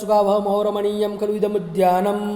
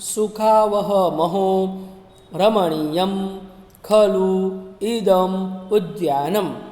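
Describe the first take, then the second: First: The phrase is spoken quickly, words run together. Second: The phrase is spoken slowly, word by word. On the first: "હવે સ્પીડમાં બોલીએ" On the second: "પહેલાં ધીમે ધીમે પહેલાં બોલતા શીખીએ"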